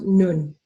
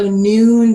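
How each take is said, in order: First: The vowel is a short uh. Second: The vowel is a long oo. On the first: The speaker calls it wrong. "shortened to uh" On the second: The speaker calls it right. "the long oo"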